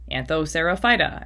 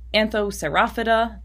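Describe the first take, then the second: First: The word ends with an 'ophyta' sound. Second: The word ends with an 'ophida' sound. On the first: "I totally hear people pronounce these um, like" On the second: "I say like ophida usually for my suffixes"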